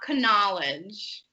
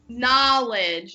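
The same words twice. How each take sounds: First: The word starts with a K sound. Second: The word starts without a K sound. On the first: The speaker calls it wrong. "not knowledge" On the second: The speaker calls it right. "that K is going to be silent"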